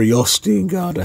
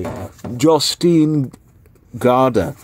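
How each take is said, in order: First: "Jostein" with a Y sound at the start. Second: "Jostein" with a hard English J; J as in jam. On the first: Vlogger trying the author's name another way, "Jostein" with a Y sound. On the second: Vlogger guessing at an author's name, "Jostein" with an English J. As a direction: say "Jostein" starting like "jaw". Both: Shown as a demonstration. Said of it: "however you say his name".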